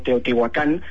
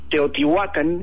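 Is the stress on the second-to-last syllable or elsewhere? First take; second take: elsewhere; second-to-last. First: The stress does not fall on the second-to-last syllable. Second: The stress falls on the second-to-last syllable. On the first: This is a distorted later pronunciation. The speaker calls it wrong. "los españoles lo pronunciaban mal" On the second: This is the original native pronunciation. The speaker calls it right. "todo en náhuatl se tiene que pronunciar con el acento en la penúltima"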